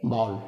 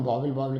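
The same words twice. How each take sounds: First: वावल run together as "baa-ul"; short, low, careful "baa-ul" for वावल; correct pronunciation. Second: वावल said casually as "baa-vil", twice; everyday two-syllable "baavil" for वावल; common mispronunciation. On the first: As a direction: glide through वावल with no "vil". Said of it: "इनको सही pronunciation क्या किया जाता है". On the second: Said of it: "अपन वावल वावल कह देते हैं". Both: Shown as a demonstration.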